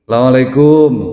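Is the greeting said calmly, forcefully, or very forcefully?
forcefully. The greeting is said somewhat forcefully.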